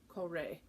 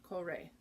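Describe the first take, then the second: Both takes have the same delivery.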